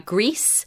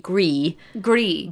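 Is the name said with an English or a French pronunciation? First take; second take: English; French. First: The name is said like English 'grease'. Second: The name is said with a French pronunciation. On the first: "they've said Grease" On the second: "if it was French, it would be Gris"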